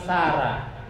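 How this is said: The name is said the Sundanese way, ending 'ah'. This is how Sundanese people say it. "orang Sunda bilang Sarah"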